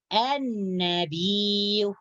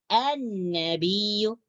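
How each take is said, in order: Both takes have the same delivery.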